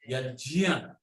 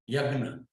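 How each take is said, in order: First: The middle consonant is a J sound blending into nya. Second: The middle consonant is a hard G sound. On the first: This is the Sanskrit pronunciation. The speaker calls it right. "The ja, nya must blend" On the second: This is how it is said in Hindi. The speaker calls it wrong. "People say yagna"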